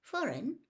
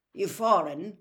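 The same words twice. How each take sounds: First: High, puzzled echo. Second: Loud, blunt challenge; blunt question. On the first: Visitor repeats the manager's word back, puzzled. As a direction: repeat it as a baffled question. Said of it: "repeated Mister Weasley, puzzled". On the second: Manager questions a visitor fumbling with money, bluntly. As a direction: put it to him bluntly. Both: A narrator's reading.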